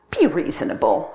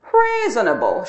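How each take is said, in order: First: Gentle pleading plea. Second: Mocking echo of reasonable, louder; smirking. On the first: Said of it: "I pleaded". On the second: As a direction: throw his word back with a smirk. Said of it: "she smirked". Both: A narrator's reading.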